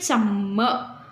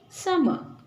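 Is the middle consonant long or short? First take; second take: long; short. First: The middle consonant is doubled and held long. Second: The middle consonant is single and short. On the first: The speaker calls it wrong. "You don't go with double letter sound" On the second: The speaker calls it right. "we just go uh, with a single letter sound"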